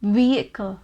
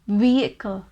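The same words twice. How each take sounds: First: The middle H sound is left silent. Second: The middle H sound is left silent.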